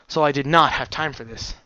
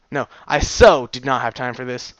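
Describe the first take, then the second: First: Said in the usual way. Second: "so" punched and louder; stress on so. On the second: Shown as a demonstration. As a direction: lean on "so".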